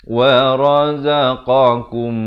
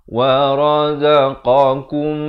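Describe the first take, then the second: Both takes have the same delivery.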